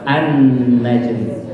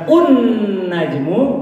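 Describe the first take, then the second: First: The word begins with an a vowel. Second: The word begins with an u vowel. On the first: The speaker calls it right. "tapi bacalah an najmu" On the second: The speaker calls it wrong. "bukan un najmu"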